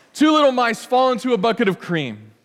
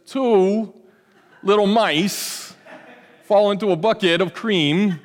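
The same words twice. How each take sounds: First: Said in the usual way. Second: Halting, slowed celebrity drawl with odd pauses; a self-conscious imitation, breaking into a laugh; Christopher Walken impression. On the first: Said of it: "that's about as good as I can get". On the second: Pastor imitating an actor accepting an award, halting and slow. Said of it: "my best Christopher Walken impersonation".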